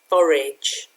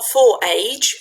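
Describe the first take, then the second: First: The second part sounds like a short 'idge'. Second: The second part sounds like the word 'age'. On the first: The speaker calls it right. "you pronounce it forage" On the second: The speaker calls it wrong. "Not for age"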